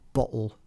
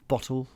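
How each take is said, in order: First: The T is replaced by a glottal stop. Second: The T is pronounced softly but still heard. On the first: "where the glottal stop is pronounced, it would be a kind of" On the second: "a halfway sort of bottle, ... It's there, but it's very soft"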